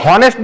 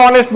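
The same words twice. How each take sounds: First: "হনেস্ট" with an audible h at the start; H sounded. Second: "অনেস্ট" starting straight on the o vowel; silent H. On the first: Teacher asks class to compare, "হনেস্ট" with h sounded. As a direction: pronounce the h in "হনেস্ট". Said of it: "হনেস্ট বলি না অনেস্ট বলি". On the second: Teacher asks class to compare, "অনেস্ট" with h silent. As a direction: leave the h off "অনেস্ট". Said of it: "এইচ এর উচ্চারণটা অ এর মতো হচ্ছে". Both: Shown as a demonstration.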